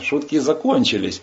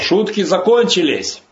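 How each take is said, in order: First: It is said quietly and calmly. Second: It is said loudly with a shriek. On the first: The speaker calls it right. "Так спокойно" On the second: The speaker calls it wrong. "он не с криком, как я сейчас, с визгом таким"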